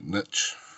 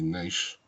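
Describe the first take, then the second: First: It is said the American way. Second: It is said the British way.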